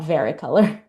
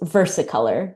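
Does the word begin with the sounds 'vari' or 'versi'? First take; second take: vari; versi. First: The word begins with the sounds 'vari'. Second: The word begins with the sounds 'versi'. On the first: The speaker calls it wrong. "I've been pronouncing it wrong this whole time" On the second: The speaker calls it right. "It's versicolor"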